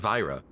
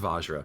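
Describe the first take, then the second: First: The word has no j sound in the middle. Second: The word has a j sound in the middle. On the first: The speaker calls it wrong. "I guess I've been saying it wrong this entire time" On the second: The speaker calls it right. "Oh my god, it is Vajra"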